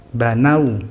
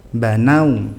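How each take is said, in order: The two takes are said the same way.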